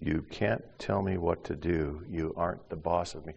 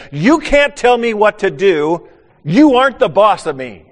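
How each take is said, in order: First: Quiet echo. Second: Put-on defiant child. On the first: Retold or imitated. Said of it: "say the same kinds of things". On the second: Little boy defying the preacher, loud defiant shout. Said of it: "in a very, uh, forceful way".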